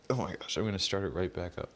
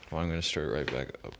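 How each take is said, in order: First: Teeth chattering in the cold; shaky from the cold; shivering. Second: Cold, fast delivery; talking while freezing; shivering. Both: Real, not acted. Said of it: "My lips are freezing".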